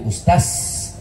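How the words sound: The final consonant is an s sound. "Orang Makassar bilang ustad jadi ustaz"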